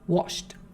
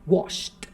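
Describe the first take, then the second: No difference in how they are said.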